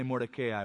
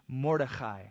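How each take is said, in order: First: The name is said with an American English pronunciation. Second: The name is said with a Hebrew pronunciation. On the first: "Let's just say Mordecai, we're Americans" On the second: "if you prefer the Hebrew pronunciation"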